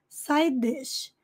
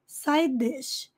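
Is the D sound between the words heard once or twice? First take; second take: once; once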